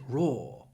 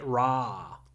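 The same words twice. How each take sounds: First: It is said with a British accent. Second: It is said with an American accent. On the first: "But British English" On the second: "Americans would say raw"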